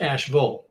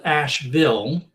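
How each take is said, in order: First: Asheville with a reduced "vul" ending, "ASH-vul"; local North Carolina pronunciation. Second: Asheville with a full "VILL" ending, "ASH-vill"; spelling pronunciation. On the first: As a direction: say Asheville like a local, last vowel swallowed. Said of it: "but it's pronounced Asheville". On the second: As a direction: say Asheville as it is spelled, clear "ville". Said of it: "Now it's spelled Asheville". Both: Shown as a demonstration.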